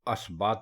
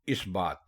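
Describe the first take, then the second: First: The word begins with an 'a' vowel. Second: The word begins with an 'i' vowel. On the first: The speaker calls it wrong. "अक्सर लोग इसको असबात बोलते हैं" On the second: The speaker calls it right. "ये लफ्ज है इस बात"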